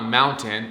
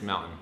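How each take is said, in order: First: The middle T is clearly pronounced. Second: The middle T is dropped. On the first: The speaker calls it wrong. "It's not mountain" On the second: The speaker calls it right. "We don't pronounce our T's in Utah"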